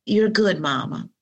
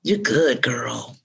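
First: A hint of a daughter comforting Mama; daughter's reassurance. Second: Reassuring yourself in your own voice, dropping at the end; understated self-encouragement, falling away on the last word; own-voice reassurance. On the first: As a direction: reassure Mama as her daughter would, pitched up at first. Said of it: "She says". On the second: Acted. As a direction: tell yourself it's fine, in your natural register. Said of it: "in my own voice".

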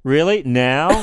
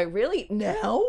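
First: Flat disbelieving "Really? Now?"; incredulous. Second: Incredulous. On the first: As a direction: ask it doubtfully. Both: Shown as a demonstration. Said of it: "You gotta go".

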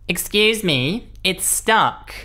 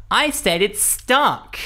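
First: High slow impatient customer voice; whiny demanding shopper; entitled customer. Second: High, slow, insistent repeat; exasperated demanding shopper, drawn out; entitled customer. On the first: Rude customer at self-checkout. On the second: Customer repeats himself, impatient. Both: Retold or imitated.

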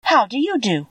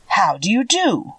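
First: Put-on higher-pitched, courteous girl's greeting; polite. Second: Slow, lightly voiced scarecrow greeting. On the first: Girl returns the scarecrow's greeting, politely. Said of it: "replied Dorothy politely". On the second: Scarecrow greets Dorothy from his pole, slow and lightly voiced. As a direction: draw out the greeting as a scarecrow, a touch formal. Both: A narrator's reading.

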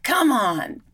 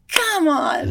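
First: Higher, louder exasperated come on; mock frustrated plea. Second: Much higher and louder, exasperated come on; escalating pretend frustration, come on; mock angry outburst. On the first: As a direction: plead at the carrot, fed up. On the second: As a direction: yell at the carrot in mock fury. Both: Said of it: "you get angry at the carrot".

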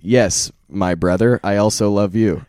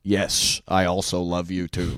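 First: Put-on loud, emphatic, hammy American accent; badly imitated American accent, projected; mock American accent. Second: American accent in a poor impression; more American accent. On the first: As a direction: declaim it in an exaggerated American accent. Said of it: "careful with those spot-on impressions". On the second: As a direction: do a mild, hammy American accent, like Nixon. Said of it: "you just do a more American accent".

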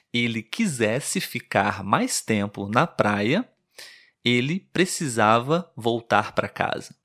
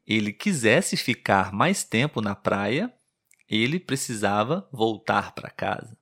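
The two takes are said the same way.

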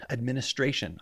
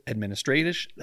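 First: Said in the usual way. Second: "Administration" fumbled into "administratish"; tongue-tied slip on "Administration"; stumbled word. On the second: Real, not acted. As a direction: slur the ending of "Administration" and break off. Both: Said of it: "I can't talk today".

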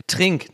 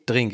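First: Trink with a crisp T at the start; corrected initial T. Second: Drink with a D at the start; T softened to D. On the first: Podcaster correcting own D-T slip, Trink with a T. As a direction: say Trink with T, not D. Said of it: "nicht Drink. Ich sage immer D T". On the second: Podcaster showing own D-T weakness, Drink with a D. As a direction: say Drink with D in place of T. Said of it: "Ich hab D-T-Schwäche". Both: Shown as a demonstration.

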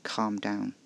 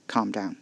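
First: Flat repeat. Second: Flat, unreceptive. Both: A narrator's reading. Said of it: "His tone was flat, unreceptive".

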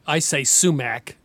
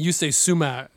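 First: Sumac with a hard final C; American pronunciation. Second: "sumac" with the C left silent; imitated Arabic pronunciation. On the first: Shown as a demonstration. Host showing his own way to say it, American "sumac". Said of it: "so American". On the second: Host copying the guest's word, "sumac" without the C. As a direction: drop the final C of "sumac". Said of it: "I guess, pronounce the C".

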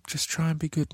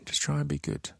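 First: Said in the usual way. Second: Said again much softer, fading; soft whispered repeat. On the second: Shown as a demonstration. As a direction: let it fade away, softer still. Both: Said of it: "repeated softer sign-off".

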